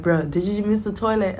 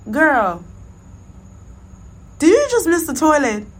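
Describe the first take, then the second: First: Said in the usual way. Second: Loud, high call from the next stall; friend calling out. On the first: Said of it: "She's like". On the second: Retold or imitated. Friend shouting from the next stall, loud and high. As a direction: yell it across to the next stall. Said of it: "my homegirl was like".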